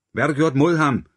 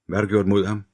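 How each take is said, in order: First: High, loud shout with "mod" hit hard; furious shout down the phone, "mod" stressed and falling. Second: Said in the usual way. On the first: A narrator's reading. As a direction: yell it at the kidnapper, louder this time. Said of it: "råbte Hunter igen".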